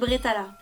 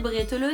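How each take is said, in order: First: The word ends with an open 'a' sound. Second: The word ends with a rounded 'eu' sound. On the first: The speaker calls it right. "bretala c'est quand même beaucoup plus joli à entendre" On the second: The speaker calls it wrong. "à prononcer bretteleux si vous êtes du Barin"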